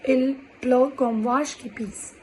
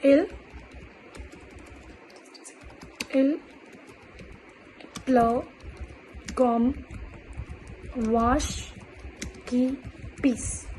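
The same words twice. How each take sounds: First: Said as one slow phrase; slow full phrase. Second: Each word set apart with long pauses; slow word-by-word dictation. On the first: Teacher modelling the full idiom as one phrase. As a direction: roll it out steadily as a model line. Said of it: "comparing like this". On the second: Teacher dictating the French idiom word by word. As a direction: dictate it slowly for learners to copy. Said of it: "the first expression I'm going to teach is". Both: Shown as a demonstration.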